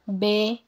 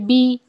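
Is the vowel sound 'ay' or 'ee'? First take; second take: ay; ee. First: The vowel is a mid 'ay' sound. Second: The vowel is a high 'ee' sound. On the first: The speaker calls it wrong. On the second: The speaker calls it right.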